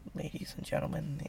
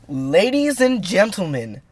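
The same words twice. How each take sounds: First: It is said quietly and timidly. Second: It is said loudly and with energy.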